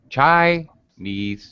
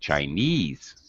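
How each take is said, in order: First: The stress is on the first syllable. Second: The stress is on the second syllable. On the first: "So high pitch, oh, chai, and low pitch" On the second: "The stress is on ease"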